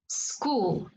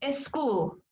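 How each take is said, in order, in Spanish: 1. Empieza directamente con el sonido s. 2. Empieza con una vocal antes de la s.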